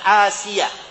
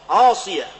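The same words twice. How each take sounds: First: The s sound is a plain, light s. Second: The s sound is a heavy, emphatic s. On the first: The speaker calls it wrong. "bukan Asiyah dengan sin" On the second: The speaker calls it right. "dengan shad"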